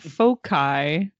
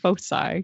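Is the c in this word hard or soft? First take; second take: hard; soft. First: The c is pronounced as a hard k. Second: The c is pronounced as a soft s. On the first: The speaker calls it wrong. "not foci" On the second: The speaker calls it right. "CI is, I believe, also su"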